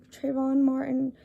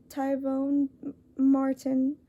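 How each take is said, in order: First: "Trayvon" fixed with a clear tr- onset, tray-von; corrected name. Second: "Tyvone" read by mistake, the r dropped, as tie-vone; misread name. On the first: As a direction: correct yourself and say "Trayvon Martin" carefully. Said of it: "No, sorry, sorry". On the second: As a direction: stumble into "Tyvone Martin" while reading the list. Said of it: "I don't know why I read that wrong". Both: Real, not acted.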